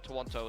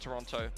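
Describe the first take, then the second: First: The name is said in an alternative way. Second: The name is said in the usual way.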